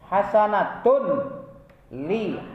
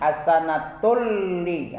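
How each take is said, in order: First: The final n is pronounced separately before l. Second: The final n merges fully into the l. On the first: The speaker calls it wrong. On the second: The speaker calls it right.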